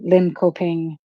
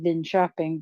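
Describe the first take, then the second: First: It is said with an American, non-Swedish pronunciation. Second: It is said with a native Swedish pronunciation. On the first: The speaker calls it wrong. "that does sound Chinese" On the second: The speaker calls it right. "I would pronounce it Linköping"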